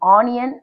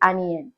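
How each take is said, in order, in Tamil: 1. முதல் உயிரெழுத்து நீண்ட 'aa' ஒலி. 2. முதல் உயிரெழுத்து குறுகிய 'uh' ஒலி. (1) "ஆனியன் pronunciation சொல்லக்கூடாதுங்க" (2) "it is அனியன்"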